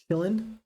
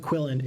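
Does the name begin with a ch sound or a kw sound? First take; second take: ch; kw. First: The name begins with a ch sound. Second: The name begins with a kw sound. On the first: The speaker calls it right. "It's it's chillin" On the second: The speaker calls it wrong. "it's not a Quillin"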